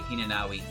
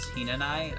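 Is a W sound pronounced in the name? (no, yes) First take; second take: yes; no. First: The name is said with a W sound. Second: The name is said without a W sound. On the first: The speaker calls it wrong. "Otherwise, her name would be Hinanawi" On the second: The speaker calls it right. "you don't pronounce the W"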